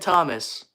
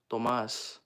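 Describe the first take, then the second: First: The name is said in a plain English accent. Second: The name is said in a Spanish accent.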